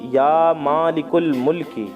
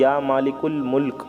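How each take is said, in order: First: The last word ends with an 'ee' vowel. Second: The last word ends on the consonant 'k'. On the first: The recitation continues without stopping. "या मालिकुल मुल्की पढ़ें इस तरह से" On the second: The reciter stops or pauses here. "जहाँ ठहरे वहाँ मुल्क पढ़ें इस तरह से"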